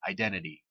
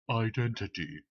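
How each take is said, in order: First: It is said in an ordinary, natural voice. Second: It is said in a special, put-on voice. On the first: It refers to identity as a real phenomenon. "I'll just say it straightforward, like personal identity, identity, like in a normal voice" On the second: It refers to identity as a convenient pragmatic fiction. "I usually do this identity sort of thing. I'll speak in that kind of voice"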